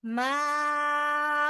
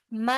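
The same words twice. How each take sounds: First: माउकुम with the ma stretched six counts; long drawn vowel in माउकुम; long mad. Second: माउकुम with the alif clipped short; clipped short vowel; short mad. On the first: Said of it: "six count पढ़ेंगे". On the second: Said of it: "माउकुम नहीं पढ़ेंगे". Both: Shown as a demonstration.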